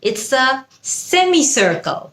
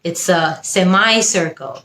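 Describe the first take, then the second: First: It is spoken in a British English accent. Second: It is spoken in an American English accent.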